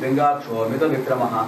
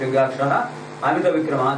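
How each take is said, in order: First: The first word ends in an 'o' sound. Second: The first word ends in an 'a' sound. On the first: This is the form used when reciting. "చదివేటప్పుడు" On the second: This is the form used when splitting the words to explain the meaning. "విడదీసి చెప్పి అర్థం చెప్పుకునేటప్పుడు"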